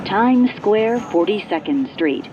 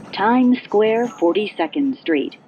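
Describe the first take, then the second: No difference in how they are said.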